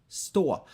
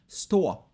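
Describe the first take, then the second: No difference in how they are said.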